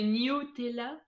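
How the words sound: It has the pronunciation used by English speakers. "Il y en a qui disent euh, Nutella. Je pense que c'est un peu les anglophones"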